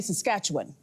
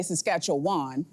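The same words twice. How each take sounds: First: "Saskatchewan" with a reduced ending, -wun; local pronunciation. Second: "Saskatchewan" ending in a full WAHN; outsider's pronunciation. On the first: Anchor giving the local form, "Saskatchewan" ending in wun. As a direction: shrink the end of "Saskatchewan" to wun. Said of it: "You say Saskatchewan". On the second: Anchor showing her Toronto mistake, "Saskatchewan" ending in WAHN. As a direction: open the last syllable of "Saskatchewan". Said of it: "you don't say Saskatchewan". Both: Shown as a demonstration.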